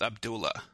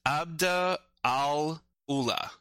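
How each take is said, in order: First: The vowels flow together into one form. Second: The vowels are kept separate, unlinked. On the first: "the vowels flow into each other, it becomes Abdullah" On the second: "which is technically, what is it?"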